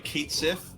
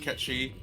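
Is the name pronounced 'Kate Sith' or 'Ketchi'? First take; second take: Kate Sith; Ketchi. First: The name is pronounced like 'Kate Sith'. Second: The name is pronounced like 'Ketchi'. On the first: This is the official pronunciation. The speaker calls it right. "is supposed to be Kate Sith" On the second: This is not the official pronunciation. The speaker calls it wrong. "and not uh Ketchi"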